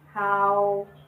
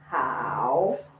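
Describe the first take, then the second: First: The pitch stays level and flat. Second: The pitch dips down then rises.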